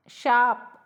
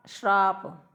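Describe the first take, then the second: First: शाप with no r, "shaap"; louder, clean शाप straight from sh to aa; correct शाप. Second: श्राप with an r slipped after sh; affected श्राप with added r; wrong form श्राप. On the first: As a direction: standard शाप without any r. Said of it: "शाप बिल्कुल सही है". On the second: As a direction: say श्राप as "shraap". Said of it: "श्राप को सही मत समझना". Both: Shown as a demonstration.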